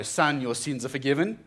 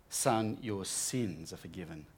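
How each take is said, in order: First: Firm, declaring voice with a rising end; powerful declaration. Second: Gentle forgiving. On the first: Jesus to the paralyzed man, firm declaration. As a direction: pronounce it like a decree. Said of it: "He's declaring something there really powerfully". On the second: Jesus speaks to paralyzed man. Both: Retold or imitated.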